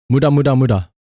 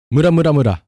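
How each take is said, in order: Both takes have the same delivery.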